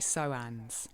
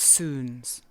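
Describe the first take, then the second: First: The vowel sounds like 'oh'. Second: The vowel sounds like 'oo'. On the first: The speaker calls it wrong. "from where I come from in the southeast of England originally, I would say Soans" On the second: The speaker calls it right. "with a Scottish accent and the etymology of the word, um, it's actually pronounced soons"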